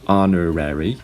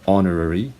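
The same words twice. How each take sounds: First: It is said in an American accent. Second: It is said in a British accent. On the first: "Americans would pronounce these words as" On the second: "British uh, people would usually pronounce these words as"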